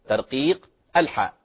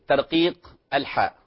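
Both takes have the same delivery.

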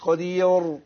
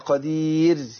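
First: The r sound is heavy and thick. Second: The r sound is light and thin. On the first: The speaker calls it wrong. "مش قدير" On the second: The speaker calls it right. "الراء هنا مرققه"

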